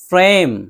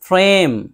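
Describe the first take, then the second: No difference in how they are said.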